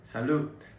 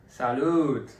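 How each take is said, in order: First: Said in the usual way. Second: A loud toast call; louder toast. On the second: Shown as a demonstration. Toasting the viewers properly, loud cheer. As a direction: belt out the toast to the camera. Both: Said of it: "I do have to say, salute".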